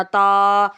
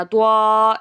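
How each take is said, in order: First: تا said as one clean syllable with a long a; correct letter sound. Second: توا said as two syllables, tu-a, the wrong way; wrong pronunciation demo. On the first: Teacher giving pupils the right sound, تا said cleanly. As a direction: give تا short and clean, tongue on the upper teeth roots. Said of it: "تا ہے". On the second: Teacher showing pupils the error, توا spoken wrongly. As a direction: show the mistake: توا with a vowel added after the t. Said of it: "اسے توا نہیں پڑھنا". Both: Shown as a demonstration.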